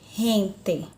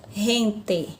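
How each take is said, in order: First: The G sounds like a dragged, rasping R. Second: The G sounds like a dragged, rasping R.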